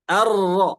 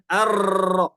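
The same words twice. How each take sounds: First: The r is said with a light, subdued trill. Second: The r is said with a long, heavy trill. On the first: The speaker calls it right. "Harus disamarkan" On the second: The speaker calls it wrong.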